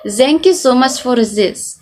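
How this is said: The 'th' in 'this' sounds like z. "pronounce it as z"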